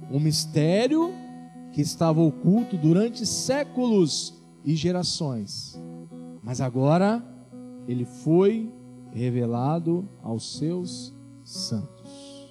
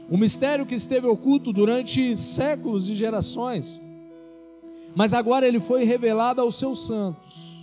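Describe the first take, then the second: First: It is read slowly. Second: It is read at a normal pace.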